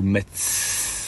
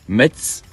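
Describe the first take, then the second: First: The word ends with a clear s sound. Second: The word ends without a final consonant sound.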